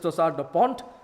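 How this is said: The term is pronounced with French sounds. "The French pronunciation is"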